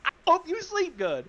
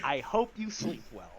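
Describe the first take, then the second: First: High-pitched, protesting requote; innocent requote. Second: Low, soft, even parting line; understated reply. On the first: Retold or imitated. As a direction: repeat it high as if obviously harmless. Requotes the line as harmless. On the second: Acted. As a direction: deliver it quietly and low. Odd reply later taken as threat.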